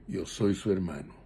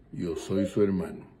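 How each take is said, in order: Both takes have the same delivery.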